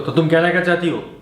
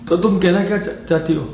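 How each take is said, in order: First: It is said in an angry tone. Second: It is said in a frightened, fearful tone. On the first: "गुस्से में बोल सकते हो" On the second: "आप उसको भय से ही बोल सकते हैं"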